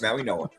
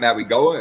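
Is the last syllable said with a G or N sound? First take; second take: N; G. First: The last syllable begins with an N sound. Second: The last syllable begins with a G sound. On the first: The speaker calls it right. "it's Maui-Noah" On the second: The speaker calls it wrong. "It's not Maui-Goa"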